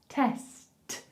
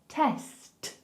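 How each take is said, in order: First: It ends with a clear t after the s. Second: The same.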